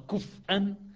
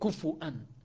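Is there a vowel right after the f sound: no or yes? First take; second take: no; yes. First: The f has no vowel after it. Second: The f is followed by a short u vowel. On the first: "بالهمز والتخفيف وسكون الفاء" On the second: "بالهمز والضم"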